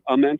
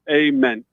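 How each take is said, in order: First: The first vowel is a soft A sound. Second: The first vowel is a hard A sound. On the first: This is how the speaker assumed it was said. "which I thought was Ament" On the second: This is how the name's owner says it. "the hard A"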